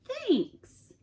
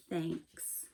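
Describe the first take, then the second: First: High, put-on bear voice, falling; a high, drawn-out thanks from the bear; Bear's thanks. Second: Much lower and softer, a touched whisper-like thanks. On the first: Bear thanks guest again. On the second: Acted. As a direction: let it come out quiet and moved. Bear, comforted, finally thanks.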